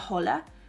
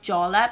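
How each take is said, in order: First: The word is not sounded out as spelled. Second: The word is sounded out as it is spelled. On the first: The speaker calls it right. "but I think you pronounce it La Jolla" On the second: The speaker calls it wrong. "It's La and then J O L L A, like Jolla"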